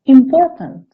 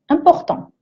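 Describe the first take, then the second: First: The word has an English pronunciation. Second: The word has a French pronunciation. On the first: "sauf que ça se prononce important" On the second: "c'est la même chose"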